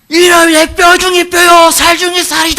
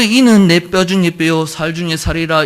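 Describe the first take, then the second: First: It is shouted out loudly with joy. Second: It is said in a calm, plain voice.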